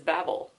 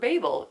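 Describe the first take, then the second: First: It uses the non-British pronunciation of the word. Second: It uses the British pronunciation of the word.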